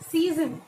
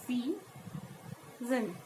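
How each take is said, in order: First: Said in the usual way. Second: "Season" softly in two widely spaced beats, sea, zen; split into syllables. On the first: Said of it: "we may take another example". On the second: Shown as a demonstration. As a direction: softly break "Season" in the middle with a long pause. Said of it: "How will we pronounce it?".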